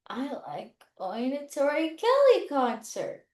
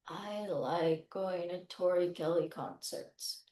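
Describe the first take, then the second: First: It is said mixing low and high pitch. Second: It is said in a flat, robot-like voice.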